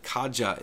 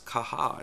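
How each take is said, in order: First: The word is pronounced the English way. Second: The word is pronounced the Spanish way. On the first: The speaker calls it wrong. "I have myself mispronounced that and called it Kaja in the past" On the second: The speaker calls it right. "the correct pronunciation is Kaja. It's based on the Spanish language"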